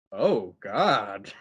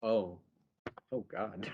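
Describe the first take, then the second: First: Low, drawn-out "Oh God"; retold dismay. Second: Low, soft, halting "oh God"; retold quiet dismay. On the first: Oliver seeing the candlelit scene, drawn-out mock dismay. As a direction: imitate fuller-voiced dismay with swooping tune. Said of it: "And Oliver's like". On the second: Charles walking in on Jan undressed, quiet mock dismay. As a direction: imitate muted dismay, pitched down. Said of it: "And Charles is like".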